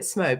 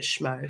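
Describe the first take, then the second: First: The word starts with a plain s sound. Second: The word starts with an sh sound. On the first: This is how the speaker first said it. "I was calling it Smo" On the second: This is how the other athletes say it. "all the athletes call it Schmo"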